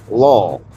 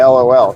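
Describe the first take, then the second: First: It is said as one single word. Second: It is spelled out as separate letters. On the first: "she tries to turn that into a word" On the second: "She doesn't usually say LOL"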